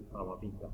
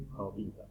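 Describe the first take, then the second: No difference in how they are said.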